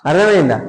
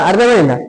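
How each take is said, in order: No difference in how they are said.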